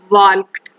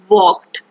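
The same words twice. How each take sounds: First: An L sound is heard in the word. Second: No L sound is heard in the word. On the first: The speaker calls it wrong. "we will not pronounce this word as walked" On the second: The speaker calls it right. "The L sound cannot be pronounced"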